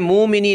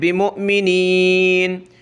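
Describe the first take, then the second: First: The word flows with no catch after 'mu'. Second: A sharp glottal catch follows 'mu'. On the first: The speaker calls it wrong. "यहाँ हमने मुमिनीन नहीं पढ़ना" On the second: The speaker calls it right. "हमज़ा पे झटका देना है"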